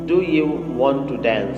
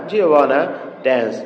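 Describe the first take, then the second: First: Every word is said fully and separately. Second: The words are contracted and blended together.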